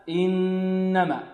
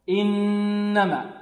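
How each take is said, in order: No difference in how they are said.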